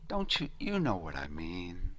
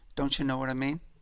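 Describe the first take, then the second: First: The tone sounds warm and friendly. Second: The tone sounds critical and harsh. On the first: The speaker is reaching out to the listener. The speaker calls it right. "which is completely different than" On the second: The speaker is finding fault with the listener. The speaker calls it wrong. "a critical song is like this"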